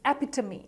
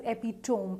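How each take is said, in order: First: "epitome" ending in tuh-mee; correct epitome. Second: "epitome" as EP-i-tome; mispronounced epitome. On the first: Teacher giving learners the right epitome, correctly pronounced. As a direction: say "epitome" in four syllables, final ee. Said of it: "It is pronounced as epitome". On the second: Teacher warning learners off wrong epitome, mispronounced. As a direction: rhyme the end of "epitome" with home. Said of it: "It's not pronounced as epitome". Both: Shown as a demonstration.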